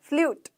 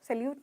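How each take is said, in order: First: The first vowel is reduced almost to nothing. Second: The first syllable has a full, open vowel. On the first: The speaker calls it right. "स्ल्यूट आधा ल है" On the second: The speaker calls it wrong. "सैल्यूट नहीं होता"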